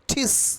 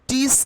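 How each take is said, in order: First: The t at the start is strongly aspirated. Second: The t at the start is plain, unaspirated. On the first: The speaker calls it right. "টি বা ট এখন উচ্চারণ হবে ঠয়ের মতো" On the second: The speaker calls it wrong. "টিস কিন্তু এখন আর হবে না"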